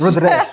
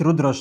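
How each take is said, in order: First: The second word has an open 'a' vowel. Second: The second word has a short 'u' vowel. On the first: The speaker calls it right. "رود راش هي دي" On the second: The speaker calls it wrong. "انا قلت رود رش صح، بس هي"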